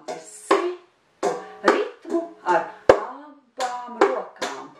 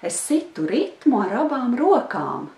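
First: It is said slowly, in a beat. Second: It is said at normal speaking speed.

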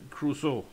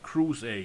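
First: The name is said with native Danish pronunciation. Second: The name is said in a simplified English way.

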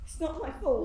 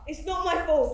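First: It is said fairly quietly. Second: It is said loudly.

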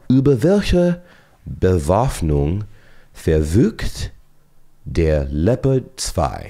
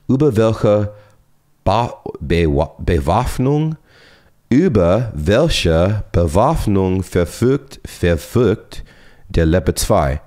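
First: The German sounds are pronounced more cleanly. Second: The German sounds are pronounced clumsily. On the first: The speaker calls it right. "So let me say that again" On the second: The speaker calls it wrong. "that pronunciation was terrible"

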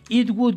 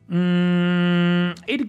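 First: Both words are said fully and separately. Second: The words are shortened into one quick syllable. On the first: "yo lo dejaría así" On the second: "muy rápida la pronunciación"

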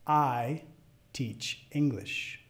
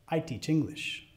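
First: It is spoken at medium speed. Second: It is spoken at natural fast speed. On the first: "a la segunda vez de velocidad media" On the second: "al final las voy a decir como las diría a otro hablante nativo"

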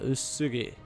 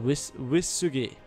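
First: The name does not begin with a 'way' sound. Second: The name begins with a 'way' sound. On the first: The speaker calls it wrong. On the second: The speaker calls it right.

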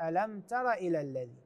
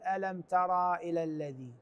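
First: The vowel after the r is short. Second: The vowel after the r is long. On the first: The speaker calls it right. "الصحيح ألم تر إلى الذي" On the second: The speaker calls it wrong. "فما نقول ألم ترى إلى الذي، هذا غير صحيح"

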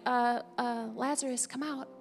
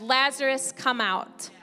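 First: It is said quietly, without force. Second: It is shouted in a loud voice. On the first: It is a mild, ordinary call. The speaker calls it wrong. "It wasn't just like" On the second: It is a forceful answer to the voice of death. The speaker calls it right. "he shouted"

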